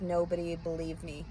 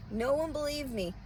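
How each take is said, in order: First: Said in the usual way. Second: "one" stressed with a higher pitch and a fall; indignant repeat. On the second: Real, not acted. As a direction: raise the pitch on "one" and let it drop.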